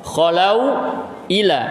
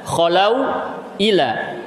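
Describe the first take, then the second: Both takes have the same delivery.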